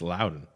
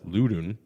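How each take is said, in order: First: The first syllable sounds like the word 'loud'. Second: The first syllable rhymes with 'lewd', not 'loud'. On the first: The speaker calls it right. "it's Loudon. Like that's that's they want to get loud and Loudon" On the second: The speaker calls it wrong. "I thought it was Ludun"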